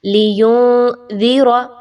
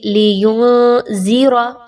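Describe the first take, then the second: First: लियुनज़िरा slow, dal soft at the front teeth; the right way, gentle dal. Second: लियुनज़िरा with a hard z-like dal; the wrong way, dal as ज़. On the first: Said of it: "दाल को नरमी के साथ अदा किया जाएगा". (लियुनज़िरा सही, दाल नरमी से) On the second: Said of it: "ऐसे नहीं पढ़ना आपने". (लियुनज़िरा ग़लत, दाल को ज़ जैसा) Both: Shown as a demonstration.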